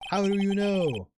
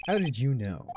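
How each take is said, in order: First: Much higher, louder accusing cry; demanding shout. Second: Said in the usual way. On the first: Acted. Pressing the lawyer about the trial, shouted much higher and louder. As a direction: fire the question at him in a shout.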